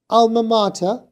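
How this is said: It is said with a British accent. "The British one was"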